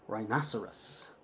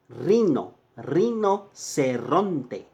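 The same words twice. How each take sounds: First: Said in the usual way. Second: Rinoceronte drawn out very slowly, rolled r; teacher slowing down rinoceronte for students; slow Spanish model word. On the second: Shown as a demonstration. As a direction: stretch rinoceronte syllable by syllable. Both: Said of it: "See, rhino".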